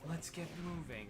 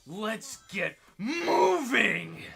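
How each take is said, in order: First: It is said in a subdued, low-energy way. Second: It is said in a lively, energetic way.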